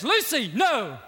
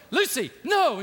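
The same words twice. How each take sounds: First: A hint of a lion's stern warning; lightly voiced Aslan calling her off; mild stern call of Aslan; Aslan's warning voice. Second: Louder shouted warning of Aslan; Aslan shouting. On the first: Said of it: "you hear this voice that says". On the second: Retold or imitated. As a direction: shout her name to stop her. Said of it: "He goes".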